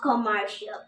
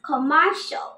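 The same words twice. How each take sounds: First: The ending is said as two syllables, shee-al. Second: The ending is said as one syllable, shl. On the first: The speaker calls it wrong. "Not কমার্শিয়াল" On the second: The speaker calls it right. "It's কমার্শিয়াল"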